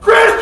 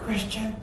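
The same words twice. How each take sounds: First: The name is shouted loudly. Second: The name is said quietly and softly.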